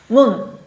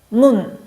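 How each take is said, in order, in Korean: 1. 이 단어는 받침이 있는 한 음절이에요. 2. 이 단어는 받침이 있는 한 음절이에요.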